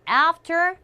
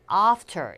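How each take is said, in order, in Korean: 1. 미국식 모음으로 발음한 거예요. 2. 영국식 모음으로 발음한 거예요. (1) "미국 영어에선 a라고 하지만" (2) "영국에선 after이라고 발음하는 경우가 많고요"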